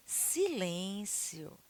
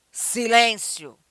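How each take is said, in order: First: Soft, drawn-out hush; quiet, lingering plea for silence; gentle request. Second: Loud, stretched order; emphatic call for silence; firm command. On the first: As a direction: ask for silence softly and slowly. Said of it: "A emoção que eu vou colocar". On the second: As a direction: demand silence forcefully. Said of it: "o tom". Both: Shown as a demonstration.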